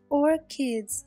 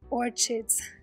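First: The 'ch' sounds like a 'k'. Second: The 'ch' sounds like in 'chicken'. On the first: The speaker calls it right. "it's pronounced that way" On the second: The speaker calls it wrong. "not orchids like children or chicken"

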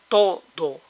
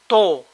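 First: The d between the vowels is fully pronounced. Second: The whole second syllable drops, leaving one syllable.

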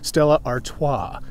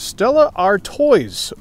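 First: Artois is said the original French way. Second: Artois is said the common anglicized way. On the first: The speaker calls it right. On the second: The speaker calls it wrong.

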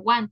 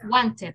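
First: The ending is a bare t sound, no syllable. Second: The ending is an extra syllable, id. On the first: The speaker calls it wrong. "no lo puede poner want, ch" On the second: The speaker calls it right. "Ahí sí tiene que pronunciarlo con id"

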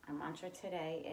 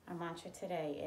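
The two takes are said the same way.

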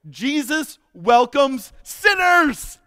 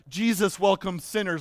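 First: It is said with a proud, celebratory tone. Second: It is said with a scornful, disapproving tone. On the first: It is worn as a badge of honor. "Luke is saying it this way" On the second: It is meant as an insult. "read it in the light of the eyes of the Pharisees"

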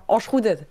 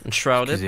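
First: It is said with a French pronunciation. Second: It is said with an English pronunciation.

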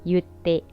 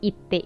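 First: The first word begins with a 'yoo' sound. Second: The first word begins with a plain 'ee' sound. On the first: This is how people say it in casual speech. "ในภาษาพูดของญี่ปุ่นเขาจะออกเสียงว่า" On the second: This is how the word is written. "ทั้งๆที่เขียนว่า"

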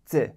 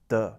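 First: The D is soft, made toward the front. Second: The D is hard, made toward the back. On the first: "Front sound" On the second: "Back sound"

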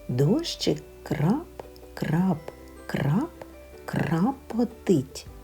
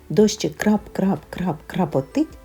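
First: The phrase is spoken slowly and carefully. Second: The phrase is spoken at a very fast pace. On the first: "правильно і повільно" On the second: "Ще швидше"

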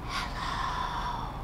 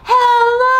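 First: It is said very quietly. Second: It is said very loudly.

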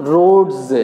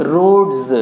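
The two takes are said the same way.

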